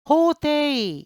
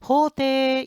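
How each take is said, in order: First: The final 'i' is pronounced as a separate vowel. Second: The final 'e' is lengthened with no separate 'i'. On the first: The speaker calls it wrong. "호데이 이렇게 발음하는 게 아니라" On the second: The speaker calls it right. "호데 이렇게 발음해요"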